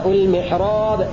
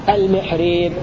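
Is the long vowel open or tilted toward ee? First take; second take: open; tilted. First: The long vowel is an open aa sound. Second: The long vowel is tilted toward an ee sound. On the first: "هذا بالفتح" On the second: "هذا بالإمالة"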